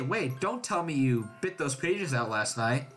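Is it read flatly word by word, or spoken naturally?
naturally. It is spoken naturally, like real speech.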